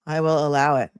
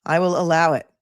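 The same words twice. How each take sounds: First: Said in the usual way. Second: Lightly voiced judge granting it, a touch grand; mock judge ruling. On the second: Host mock-rules on a chat coinage, lightly grand. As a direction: play the judge allowing the word, tongue in cheek.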